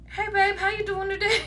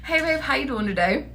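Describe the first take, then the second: First: Sugary greeting breaking into a laugh; sweet opener, cracking up. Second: Gentle easy greeting, straight-faced this time; sweet casual opener, composed. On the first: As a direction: try the sweet hello but crack up. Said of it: "I need y'all to just be like". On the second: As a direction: redo the sweet hello without laughing. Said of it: "I'm sorry". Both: Shown as a demonstration.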